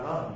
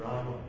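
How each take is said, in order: First: The word ends on the m sound. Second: The word ends with a vowel after m. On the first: It is read as if it were Hindi. The speaker calls it wrong. "It looks like Ram when you read it as a Hindi speaker" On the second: It is read as Sanskrit. The speaker calls it right. "But when you read it as Sanskrit, it's not Ram, it's Rama"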